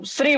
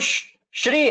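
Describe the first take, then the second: First: The word begins with an s sound. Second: The word begins with an sh sound. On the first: The speaker calls it wrong. "तुम श को स बोल रहे हो" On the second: The speaker calls it right. "वो श्री है"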